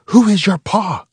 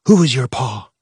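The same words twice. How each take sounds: First: High, loud soldier demand; mother playing a soldier, furious; intense mock interrogation. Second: Stern mock interrogation; mother playing a Khmer Rouge soldier; angry soldier voice. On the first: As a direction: demand it with fury. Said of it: "she said again, even more intense". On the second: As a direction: bark it like a soldier. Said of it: "She put on an angry voice".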